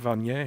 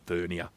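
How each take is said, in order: First: It is said with a French pronunciation. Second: It is said with an English pronunciation. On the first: "technically it should be pronounced vernier because it's named after Pierre Vernier" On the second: "like English-speaking nations, we just call it vernier"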